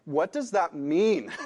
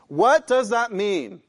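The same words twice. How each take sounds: First: Said in the usual way. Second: WHAT stressed, louder and slow; emphatic repeat. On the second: Shown as a demonstration. Preacher repeating the question louder. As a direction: press the question home.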